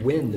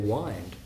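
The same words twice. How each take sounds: First: It is said without rhyming with find. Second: It is said so it rhymes with find. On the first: The word is pronounced correctly. "you have to say the word wind" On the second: The word is bent to keep the rhyme. "if you're going to get a rhyme, you would say wind"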